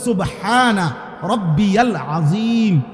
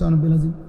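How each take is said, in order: First: Every syllable is pronounced clearly and fully. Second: Syllables are dropped and slurred together quickly. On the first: The speaker calls it right. "শব্দ হইল" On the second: The speaker calls it wrong. "আপনি এখন সোনা বেলাজিম ... কিতা?"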